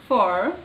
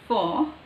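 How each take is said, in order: First: It is said with a strong r sound. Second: It is said without a strong r sound. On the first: "they use this sound everywhere like for for" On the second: "but in British it is o for"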